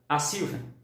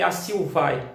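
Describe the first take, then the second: First: The stress is on the third-to-last syllable. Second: The stress is on the final syllable. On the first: The speaker calls it right. "ela é uma proparóxida" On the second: The speaker calls it wrong. "isso seria oxítona"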